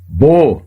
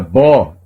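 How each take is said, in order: First: The vowel is a closed, non-Portuguese o. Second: The vowel is an open, Portuguese-style ó. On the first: The speaker calls it right. "e sim bo" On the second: The speaker calls it wrong. "não se lê como na língua portuguesa bó"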